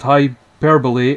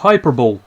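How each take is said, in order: First: The word ends in 'bolee', four syllables. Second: The word ends in 'bowl', three syllables. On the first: The speaker calls it right. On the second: The speaker calls it wrong.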